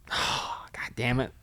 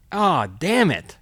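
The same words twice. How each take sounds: First: Hushed, breathless whisper of dismay; a whispered oh God damn it, sinking in; whispered curse. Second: Slow, stretched-out damn it; rueful, slowed oh damn it; drawn-out groan. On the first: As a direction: mutter it under your breath, voiceless. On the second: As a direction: let the word damn sag and drag. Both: Retold or imitated. Retold realization, inner voice.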